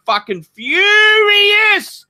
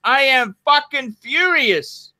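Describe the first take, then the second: First: High, drawn-out shout on furious. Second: Contained, emphatic anger; furious. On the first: Host fuming about the spending advice, furious shout. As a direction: explode on the last word. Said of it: "I'm fucking furious". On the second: Host restating it after the outburst, controlled fury. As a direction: state it firmly, without shouting. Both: Real, not acted.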